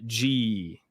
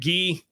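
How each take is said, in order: First: It begins with a soft J sound. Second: It begins with a hard G sound.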